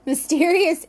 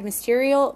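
First: "mysterious" said correctly after a slip; fixing the slip with a laugh on "mysterious"; corrected word. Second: "mysterial" said in place of mysterious; stumbling over "mysterial"; mispronounced word. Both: Real, not acted. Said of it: "sorry, mysterious".

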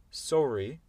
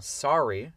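First: "sorry" with a rounded British O, R sounded; British "sorry", pitched up; R pronounced, British. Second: "sorry" with its middle R clearly sounded, open vowel; R pronounced. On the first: Teacher showing an exception, British "sorry" with audible R. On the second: Teacher showing an exception, "sorry" with the R sounded. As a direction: draw out "sorry", R audible. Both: Shown as a demonstration. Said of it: "mais ça se prononce".

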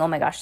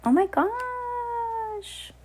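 First: Said in the usual way. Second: High, very slow drawn-out gasp of wonder; amazed. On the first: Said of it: "I wasn't saying". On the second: Real, not acted. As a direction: marvel at the picture. Reacts to picture page.

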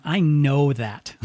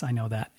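First: I know that, slow and weighty, I stressed. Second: Said in the usual way. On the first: Real, not acted. Telling grieving listeners she truly knows, slow stress on I. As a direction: lean hard on I in I know that. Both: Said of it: "And when I say you're not alone".

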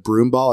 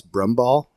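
First: Said in the usual way. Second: "brum ball" with a short u; Minnesotan pronunciation. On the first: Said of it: "instead of broom ball, it's brum ball". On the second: Shown as a demonstration. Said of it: "it's brum ball".

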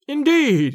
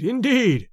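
First: Mocking indeed. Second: Softer mocking echo. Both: A narrator's reading. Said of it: "and he laughed to himself".

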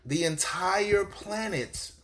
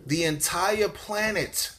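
Both takes have the same delivery.

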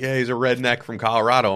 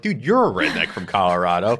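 First: Said in the usual way. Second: Retold retort with "you're" punched; "you're" stressed against the rest. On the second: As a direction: lean hard on "you're", turning it back. Retort turns the remark back.

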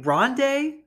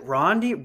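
First: "Rondé" ending in an ay sound, higher and questioning; corrected pronunciation. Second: "Rondi-" ending in an ee sound; tentative pronunciation. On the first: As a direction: try "Rondé" louder, with rising final ay. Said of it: "yeah, Rondé and Tiki Barber". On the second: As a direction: say "Rondi-" with final ee, trying it out. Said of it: "what the fuck is it?". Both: Shown as a demonstration.

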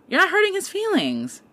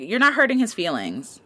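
First: "hurting" hit much higher in pitch; emphatic repeat. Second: Said in the usual way. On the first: Shown as a demonstration. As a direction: jump way up on "hurting" to drive it home.

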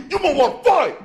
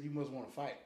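First: Put-on loud high drunk yell; angry challenge. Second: Said in the usual way. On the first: Drunk caller picking a fight, loud high yell. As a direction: bark the challenge at him. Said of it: "a rage-induced call". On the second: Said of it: "they said".

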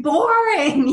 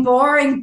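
First: "boring" pitched higher, stretched and insistent; emphatic repeat. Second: Said in the usual way. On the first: Retold or imitated. Wishing the birth mother were normal, "boring" pleaded higher. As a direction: lean into the second "boring" as a plea. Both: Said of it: "And I say in the book".

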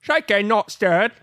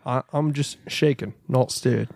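First: Higher, slow fake Australian accent; mock Australian Bond. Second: Pierce Brosnan. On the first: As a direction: stretch the broad Australian vowels. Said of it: "That's an Australian Bond". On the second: Acted. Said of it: "Do a Pierce Brosnan James Bond".

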